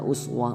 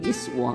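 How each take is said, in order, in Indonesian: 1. Kata ini diawali dengan vokal u. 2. Kata ini diawali dengan vokal i. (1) "Itu uswah karena menggunakan dhammah" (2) "Kalau disebutkan dengan iswah"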